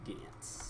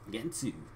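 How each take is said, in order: First: The word ends on a consonant sound. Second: The word ends on an added vowel sound. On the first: "I think that's how you pronounce it" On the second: "That's how they say it"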